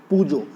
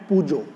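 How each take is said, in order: First: The word ends with an 'o' vowel. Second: The word ends with an 'o' vowel.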